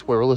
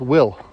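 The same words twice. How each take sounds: First: Wirral in two syllables, WIRR-ul; "Wirral", stretched into WIRR-ul; mistaken pronunciation. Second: Will as one short syllable; "Will", one syllable rhyming with hill; corrected pronunciation. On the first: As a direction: say Wirral with an r in the middle. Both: Shown as a demonstration. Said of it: "no, it's pronounced Will".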